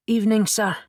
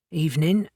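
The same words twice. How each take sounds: First: Put-on thick Scottish accent, a touch higher. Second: Said in the usual way. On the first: A narrator's reading. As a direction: speak it in a thick Scottish brogue. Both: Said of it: "he said in a thick Scottish accent".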